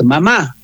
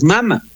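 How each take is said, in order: First: "mamá" said ma-MÁ, stress on the last syllable; Spanish mamá. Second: "mama" said MA-ma, stress on the first syllable; Quichua mama. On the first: Teacher contrasts the Castilian word for mother, last syllable stressed. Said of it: "solamente con el acento dice". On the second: Teacher shows the Quichua word for mother, first syllable stressed. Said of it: "en quichua no tenemos el acento". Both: Shown as a demonstration.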